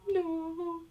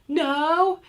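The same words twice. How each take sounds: First: It is said in a sad tone. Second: It is said in an angry tone. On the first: The child is responding with sadness. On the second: The child is responding with anger.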